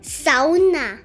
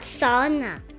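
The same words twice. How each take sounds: First: The stress is on the first syllable. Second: The stress is not on the first syllable. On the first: This is how Finns say it. "with the emphasis on the first syllable" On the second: This is how many foreigners say it. "like many of us are used to saying"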